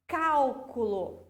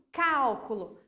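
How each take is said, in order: First: "cálculo" slowly, in three syllables cál-cu-lo. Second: "Cálculo" as one word, first syllable hit firmly; stress on CÁL. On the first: Teacher counting three syllables for pupils, "cálculo" syllable by syllable. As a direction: stretch out "cálculo", weight on CÁL. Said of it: "três sílabas". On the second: Teacher showing the accented syllable to pupils, stress on CÁL. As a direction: punch CÁL in "Cálculo", let the rest follow. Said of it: "Minha sílaba tônica". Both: Shown as a demonstration.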